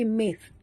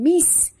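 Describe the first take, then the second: First: The consonant is a soft th sound. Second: The consonant is a plain hissing s. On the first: The speaker calls it right. "tapi mis ya" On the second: The speaker calls it wrong. "bukan mis"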